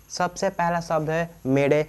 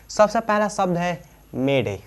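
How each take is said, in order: Both takes have the same delivery.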